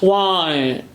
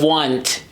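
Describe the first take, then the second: First: The final T is replaced by a soft vowel. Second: The final T is clearly pronounced. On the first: "he replaces the T consonant with a shadow vowel" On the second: "instead of want"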